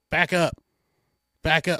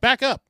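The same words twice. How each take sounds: First: Said in the usual way. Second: Higher, louder "Back up"; firmer command. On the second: Retold or imitated. Officers ordering the advancing crowd back, louder firmer command. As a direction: raise it to a sharp warning. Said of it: "They're like".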